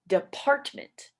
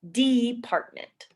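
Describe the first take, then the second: First: The first syllable is not stressed. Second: The first syllable is stressed. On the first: The speaker calls it right. "we say department" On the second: The speaker calls it wrong. "instead of stressing the D in department"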